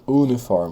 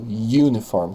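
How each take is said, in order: First: The word begins with a plain vowel sound. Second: The word begins with a y sound. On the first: The speaker calls it wrong. "Eu não falo uniform" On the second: The speaker calls it right. "eu falo uniform, como se tivesse um Y na frente"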